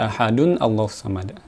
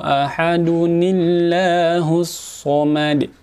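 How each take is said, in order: First: Ahadun and Allahu are said without an 'i' link. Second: Ahadun joins the next word through an 'i' sound. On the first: The speaker calls it wrong. "jangan baca" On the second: The speaker calls it right. "seperti itu"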